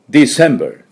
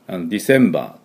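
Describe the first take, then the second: First: The first D is strong and sharp. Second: The first D is soft and weak. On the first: The speaker calls it right. "しっかり鋭く、これぐらい" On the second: The speaker calls it wrong. "ディセンバーというように弱くやらないように"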